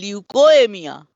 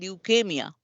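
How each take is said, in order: First: An extra 'o' vowel comes before '-emia'. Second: No extra vowel comes before '-emia'. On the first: The speaker calls it wrong. "we don't say leukemia" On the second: The speaker calls it right. "we say leukemia"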